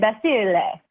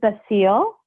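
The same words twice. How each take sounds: First: The name is said with an Italian pronunciation. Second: The name is said with an English pronunciation. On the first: "the correct uh, Italian pronunciation" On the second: "It is Basile"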